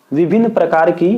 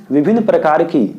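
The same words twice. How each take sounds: The two takes are said the same way.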